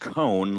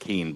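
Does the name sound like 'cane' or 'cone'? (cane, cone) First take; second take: cone; cane. First: The name rhymes with 'bone'. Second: The name rhymes with 'rain'. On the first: The speaker calls it right. "It's Cone, like Conehead" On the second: The speaker calls it wrong. "instead of Kane"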